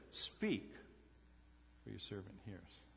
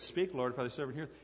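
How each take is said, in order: First: Much softer, dropping away to almost nothing on "for your servant hears"; a faint, uncertain murmur of "Speak, for your servant hears"; hushed, hesitant. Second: Said in the usual way. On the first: Shown as a demonstration. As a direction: say it timidly, as a nervous boy who forgets the words. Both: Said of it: "He left out the Lord".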